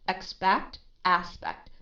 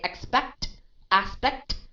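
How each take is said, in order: First: The t sounds are soft and light. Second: The t sounds are strongly aspirated and spitty. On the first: The speaker calls it right. "how naturally and how soft I I read those two words" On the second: The speaker calls it wrong. "Don't say"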